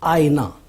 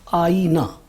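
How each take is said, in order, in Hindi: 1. बीच का स्वर छोटा बोला जाता है। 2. तीनों स्वर लंबे बोले जाते हैं। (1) "इसमें हमज़े के नीचे ज़ेर लगाया है" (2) "पहला है आईना मफ़ऊलुन"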